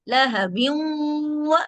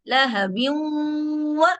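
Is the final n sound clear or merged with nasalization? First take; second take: merged; merged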